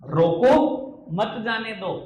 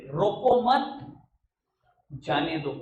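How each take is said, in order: First: Loud rising रोको, pause, then मत जाने दो together; punched रोको, a break, falling मत जाने दो; comma after रोको. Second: Rising रोको मत, a break, falling जाने दो; comma after मत. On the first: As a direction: stop hard after रोको, join मत to जाने दो. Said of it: "कॉमा है". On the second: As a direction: join रोको to मत, stop, then drop on जाने दो. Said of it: "कॉमा को ना मत के बाद कर देते थे". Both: Shown as a demonstration.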